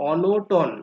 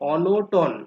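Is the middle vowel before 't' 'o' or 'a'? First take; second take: o; o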